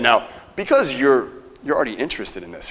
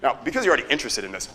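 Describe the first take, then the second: First: It sounds hesitant and questioning, like seeking confirmation. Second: It sounds confident and assuming, stated as fact. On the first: The listener's interest is in doubt. The speaker calls it wrong. "that would have sounded uncertain" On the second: The listener's interest is taken for granted. The speaker calls it right. "assumption tonality"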